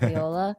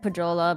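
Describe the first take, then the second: First: The middle consonant sounds like English 'y'. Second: The middle consonant sounds like English 'j'. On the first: The speaker calls it right. "I think it's Puyola" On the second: The speaker calls it wrong. "I said Pujola, but then people corrected me"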